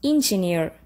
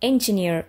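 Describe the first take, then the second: First: The word begins with an 'in' sound. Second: The word begins with an 'en' sound. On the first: The speaker calls it wrong. "We don't say engineer" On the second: The speaker calls it right. "We say engineer, which starts with the vowel sound A"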